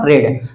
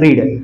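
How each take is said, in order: First: The vowel is a short 'e' sound. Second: The vowel is a long 'ee' sound. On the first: "त्याला वाचतो आपण रेड" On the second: "रीडचं spelling असतं"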